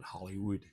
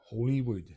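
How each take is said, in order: First: The first part sounds like 'holly'. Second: The first part sounds like 'holy'. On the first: This is how most people say it. "You probably all call it Hollywood" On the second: This is the traditional pronunciation. "the proper pronunciation of it is Hollywood"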